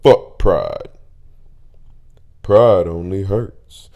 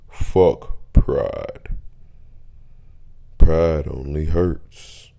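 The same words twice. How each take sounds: First: It is said in his normal voice. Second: It is said in a put-on deep voice.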